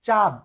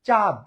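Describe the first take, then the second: Both takes have the same delivery.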